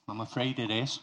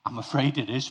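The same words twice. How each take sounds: First: Softer repeat, sinking a little lower; quiet repeat. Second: Said in the usual way. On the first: Shown as a demonstration. Pastor repeating the hard truth to his flock, softly. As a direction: let the line drop away gently the second time.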